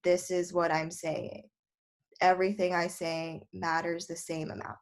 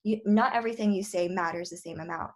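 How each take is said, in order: First: Bored monotone reading, nothing stands out; flat monotone. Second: "not" punched, the rest quick and lively; emphatic correction with "not" stressed. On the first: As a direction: drone it out without any emphasis. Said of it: "So you don't wanna be like". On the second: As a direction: hit "not" and rush through the rest. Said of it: "make it stand out more". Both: Shown as a demonstration.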